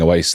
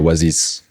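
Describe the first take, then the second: First: It is said with an ordinary English accent. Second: It is said with a French accent.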